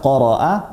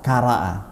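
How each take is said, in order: First: The first sound is a deep throat q. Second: The first sound is a plain k.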